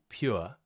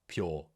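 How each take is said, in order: First: The vowel is a gliding 'ur' diphthong. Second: The vowel is a long 'or' sound. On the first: "which is ur, like in pure" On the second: "we just replace this with an or sound, so we'd say pure"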